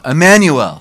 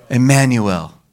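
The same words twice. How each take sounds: First: Louder, higher call of the name Emmanuel; said aloud. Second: Said in the usual way. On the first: Shown as a demonstration. Preacher calling the congregation to say Emmanuel, loud. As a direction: ring out Emmanuel to the room. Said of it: "Say it aloud". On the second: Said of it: "Everyone say".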